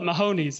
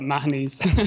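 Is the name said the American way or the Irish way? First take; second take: American; Irish. First: The name is said the local American way. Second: The name is said the Irish way. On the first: This is how the locals say it. The speaker calls it wrong. "they all call it" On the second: This is how Irish people say it. The speaker calls it right. "we'd call it"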